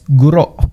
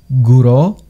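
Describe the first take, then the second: First: The word ends with a glottal stop. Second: The word ends on an open vowel. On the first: The speaker calls it right. "es guro. Nota el pausa glotal en el fin sílaba" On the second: The speaker calls it wrong. "o guro"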